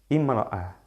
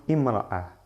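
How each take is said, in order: The two takes are said the same way.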